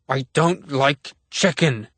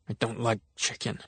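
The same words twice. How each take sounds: First: It is shouted loudly and forcefully. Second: It is said quietly and timidly. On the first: "Grandpa bellowed" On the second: "repeated meekly one last time"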